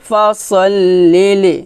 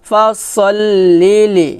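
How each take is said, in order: Both takes have the same delivery.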